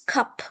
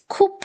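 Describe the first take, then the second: First: The vowel is an open uh sound. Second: The vowel is a rounded oo sound. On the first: The speaker calls it right. "this is pronounced as cup. A. A sound" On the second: The speaker calls it wrong. "we don't pronounce cup"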